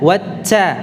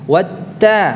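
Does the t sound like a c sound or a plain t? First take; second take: like c; plain t. First: The t is over-breathy and sounds like c. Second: The t has only a slight breathy release. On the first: The speaker calls it wrong. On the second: The speaker calls it right.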